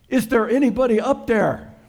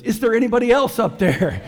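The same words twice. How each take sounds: First: High, loud, pleading call up to the sky; a stranded hiker yelling up for help; desperate call upward. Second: High, loud plea with a laugh in it, leaning on "else"; hopeful call upward. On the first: Hiker dangling from a tree over a fjord, calling up in a high, loud plea. Man hanging off a cliff calls up. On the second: Hiker rejecting God's advice, calling up high and loud, leaning on "else". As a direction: ask hopefully for a second opinion, stressing "else". Punchline, Ole asks again. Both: Acted.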